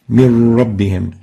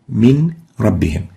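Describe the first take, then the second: First: The n merges into a doubled r sound. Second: The n is pronounced clearly before the r. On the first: The speaker calls it right. "No nun would be pronounced, only a ra, and the ra will be like duplicate ra" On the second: The speaker calls it wrong. "the nun and ra, are spelled clearly and independently"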